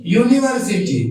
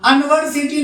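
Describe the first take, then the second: First: यूनिवर्सिटी with a clear yu at the start; correct pronunciation. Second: अनवर्सिटी with a short a at the start; wrong pronunciation. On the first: Teacher giving the class the right reading, यूनिवर्सिटी. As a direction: say यूनिवर्सिटी as yoo-niversity. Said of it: "इसको क्या पढ़ते हैं?". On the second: Teacher showing the class the wrong way, अनवर्सिटी. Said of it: "आप अनवर्सिटी नहीं पढ़ते इसको". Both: Shown as a demonstration.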